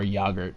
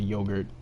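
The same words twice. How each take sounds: First: It is said with a non-American, viewers' pronunciation. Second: It is said with the speaker's own American pronunciation.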